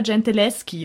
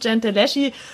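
First: The middle consonant cluster is a hard 'sk' sound. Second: The middle consonant cluster is a soft 'sh' sound. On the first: The speaker calls it right. "dass man im Italienischen SCH als G ausspricht und deswegen heißt sie" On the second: The speaker calls it wrong.

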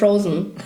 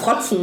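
First: It is said with an English pronunciation. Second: It is said with a heavy German pronunciation.

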